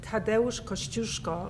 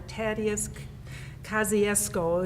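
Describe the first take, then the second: First: The name is said with Polish pronunciation. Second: The name is said with American pronunciation. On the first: The speaker calls it right. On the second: The speaker calls it wrong.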